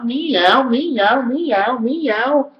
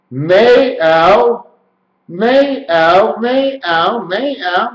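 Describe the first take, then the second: First: "meow" as one high, rising cat-like word; run together. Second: "May ow" as two split sounds, high; sounded out. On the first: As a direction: glide "meow" upward, over and over. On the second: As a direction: stretch "May" and "ow" apart, pitched up. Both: Shown as a demonstration. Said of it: "this is what it sounds like".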